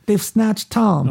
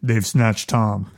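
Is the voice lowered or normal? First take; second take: normal; lowered. First: It is said in a normal voice. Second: It is said in a lowered voice.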